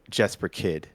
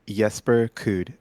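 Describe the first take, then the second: First: The surname has a short vowel, like 'kid'. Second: The surname has a rounded vowel, like 'kood'. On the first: This is how most Americans say the name. The speaker calls it wrong. "as most Americans would say" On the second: This is how the name is really said. The speaker calls it right. "the proper pronunciation of his name is [name]"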